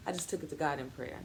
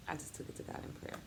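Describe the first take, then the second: First: Said in the usual way. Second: Soft unvoiced whisper, a touch fast; whispered echo. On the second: Shown as a demonstration. Mother repeating her prayer line as a hushed whisper. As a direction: breathe it again as a private prayer.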